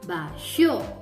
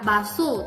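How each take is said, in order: First: The middle consonant is an sh sound. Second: The middle consonant is a plain s sound. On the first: The speaker calls it right. "karena ada H, S H O, jadikan basho" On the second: The speaker calls it wrong. "tidak baso, tidak begitu kan saya ucapkan"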